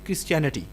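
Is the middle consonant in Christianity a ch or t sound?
ch. The middle consonant is a ch sound. "In American accent"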